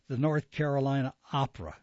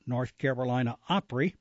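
First: Opera, said OP-ruh, ending in -ruh; quick correction to "Opera" with an -uh ending; corrected reading. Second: Opry, said OP-ree in place of Opera; misread slip. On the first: Announcer fixing own slip, correctly saying Opera as OP-ruh. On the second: Announcer reading the opera listing, misreading it as Opry. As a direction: misread the last word as "Opry", ending in -ree. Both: Real, not acted. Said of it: "excuse me".

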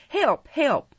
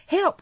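First: High, urgent call for help; cry for help. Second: Very high mimicking cry; mocking repeat. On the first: Oliver struggling in the man's grasp, crying for help. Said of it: "cried Oliver, struggling in the man's". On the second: Man repeating Oliver's plea, high mocking echo. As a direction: throw the cry back, high-pitched. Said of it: "repeated the man". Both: A narrator's reading.

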